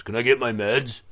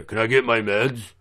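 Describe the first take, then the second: First: A hint of an entitled inmate, lightly voiced; mild mock inmate voice; pushy inmate. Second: Mild mock inmate, pressing harder; pushy inmate. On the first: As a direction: toss off the request like he's owed it. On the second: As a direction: repeat the demand, barely voiced. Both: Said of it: "some other motherfucker walks up and goes".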